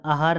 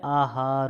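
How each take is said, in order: First: आहार with short first a, "ahaar"; wrong short vowel. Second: आहार stretched as "aa-haar"; long vowels. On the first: Teacher showing the error, short-a आहार. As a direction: clip the opening of आहार to "a". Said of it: "नहीं होता है". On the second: Teacher correcting students, drawn-out आहार. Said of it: "होता है". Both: Shown as a demonstration.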